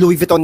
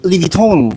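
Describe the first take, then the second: First: Louis Vuitton said the local Filipino way, every letter sounded, "Lu-is Vi-ton"; Louis Vuitton as Filipinos usually say it, with the s spoken; the common local Louis Vuitton, Lu-is Vi-ton. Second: Louis Vuitton said the French way, "Lwee Vwee-ton", silent s; the correct French Louis Vuitton, Lwee Vwee-ton; Louis Vuitton in French, run together with no s. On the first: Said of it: "Ang tawag natin Louis Vuitton". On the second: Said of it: "It should be Louis Vuitton". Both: Shown as a demonstration.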